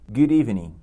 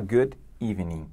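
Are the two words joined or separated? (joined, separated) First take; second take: joined; separated. First: The final d runs straight into evening. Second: The two words are said apart with a break. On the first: The speaker calls it right. "você tem que conectá-las" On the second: The speaker calls it wrong. "Você não vai falar good evening"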